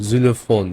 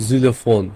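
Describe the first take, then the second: The two takes are said the same way.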